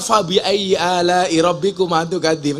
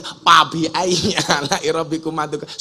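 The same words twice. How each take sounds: First: "Fabi" with a clear F, slowly recited; slow recitation keeping F in "Fabi"; proper F sound. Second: "Fabi" said as PABI, slowly recited; slow recitation with P in "Fabi"; Sundanese P for F. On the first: Shown as a demonstration. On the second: Retold or imitated. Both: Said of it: "Nggak ada F, adanya P".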